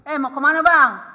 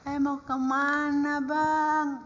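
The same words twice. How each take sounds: First: It is said harshly in a strong regional accent. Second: It is said softly and gently. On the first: This is how Batak people really talk. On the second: This is not how Batak people talk. "Nggak ada begitu"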